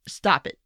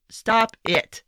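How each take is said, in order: First: Said in the usual way. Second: Firmer, exasperated STOP it; a scolding, fed-up second stop it. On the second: Real, not acted. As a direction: tell him off, fed up. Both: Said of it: "Just shut, stop it".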